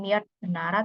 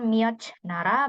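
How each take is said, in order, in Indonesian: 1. Kata pertama diakhiri dengan bunyi t. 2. Kata pertama diakhiri dengan bunyi j. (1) "bukan Myeot Nara" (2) "bukan Myeoj Nara"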